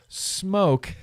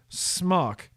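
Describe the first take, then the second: First: The vowel is a long 'oh' sound. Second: The vowel is a short 'o' sound. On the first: The speaker calls it right. "that's why I know how to pronounce it smoke" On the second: The speaker calls it wrong. "instead of smock"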